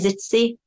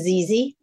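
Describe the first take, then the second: First: The double Z is a ts sound. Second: The double Z is a plain z sound. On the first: "Some say Zitzy. ... it's like pizza, isn't it? Double Z" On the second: "we still stick to ZZ in this house"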